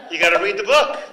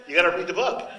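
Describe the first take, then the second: First: "book" pushed out louder and higher; emphatic urging. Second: Said in the usual way. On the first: Real, not acted. Teacher urging listeners to read the novel, louder emphatic. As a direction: insist on it, louder.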